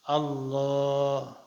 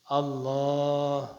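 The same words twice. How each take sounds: Both takes have the same delivery.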